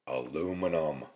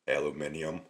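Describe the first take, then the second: First: The word is said the American way. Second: The word is said the British way.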